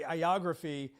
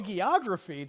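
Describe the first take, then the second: First: The word begins with a vowel, no h sound. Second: The word begins with a clear h sound. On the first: The speaker calls it wrong. "I'm saying it the Greek way" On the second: The speaker calls it right. "You've got that hag sound up front"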